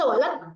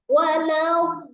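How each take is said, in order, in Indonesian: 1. Bunyi konsonan akhirnya dipotong pendek. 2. Bunyi konsonan akhirnya dipanjangkan. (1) "Jadi nggak bisa" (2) "el tuh molor tuh kayak gitu"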